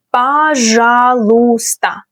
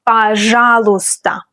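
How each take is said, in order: First: Пожалуйста drawn out slowly, each syllable clear; slow demo. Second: Said in the usual way. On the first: Shown as a demonstration. Teacher to learners, Пожалуйста slowly and clearly.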